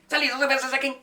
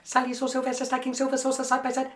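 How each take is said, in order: First: It is said with a tense, strained voice. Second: It is said with a relaxed, loose voice.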